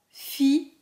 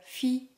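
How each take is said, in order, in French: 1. Le mot est prononcé lentement et doucement. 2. Le mot est prononcé rapidement. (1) "Prononce doucement" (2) "puis de plus en plus rapidement"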